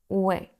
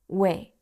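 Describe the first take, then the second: First: Two vowels glide together into one syllable. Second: Two vowels glide together into one syllable.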